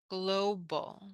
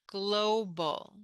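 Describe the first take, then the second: The two takes are said the same way.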